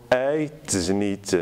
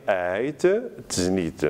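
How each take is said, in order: First: "ait znit" run together over one t; assimilated T. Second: "ait znit" as two separated words; written form. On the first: Teacher showing the spoken form, "ait znit" joined. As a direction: link "ait znit" without a break. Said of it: "ça devient te comme". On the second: Teacher dictating spelling, "ait znit" with a clear break. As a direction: pause after "ait", then say "znit". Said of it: "On va écrire". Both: Shown as a demonstration.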